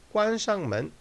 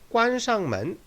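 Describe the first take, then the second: Both takes have the same delivery.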